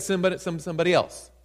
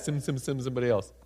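First: Said in the usual way. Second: "Send, send, send" tumbled out fast and lower, softer; quick sheepish mumble. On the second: Shown as a demonstration. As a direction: mumble it fast like a reluctant excuse. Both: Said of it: "He probably said it just like that".

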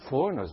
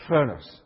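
First: Said in the usual way. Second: Foreigners said as fur-ners, no o sound, r-coloured; Southern pronunciation. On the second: Shown as a demonstration. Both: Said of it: "In the South, we say".

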